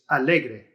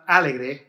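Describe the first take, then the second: First: The stress is on the middle syllable. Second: The stress is not on the middle syllable. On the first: The speaker calls it right. "it's alegre" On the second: The speaker calls it wrong. "It's not alegre"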